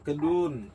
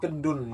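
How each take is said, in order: First: The u vowel is said long. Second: The u vowel is said short. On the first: The speaker calls it right. "U-nya panjang" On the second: The speaker calls it wrong. "Bukan kedun ya"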